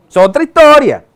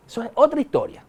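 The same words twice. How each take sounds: First: Loud, high exclamation; big emphatic declaration; emphatic aside. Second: Said in the usual way. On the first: Real, not acted. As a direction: throw it out forcefully, pitched up. Emphatic aside, then softly repeated.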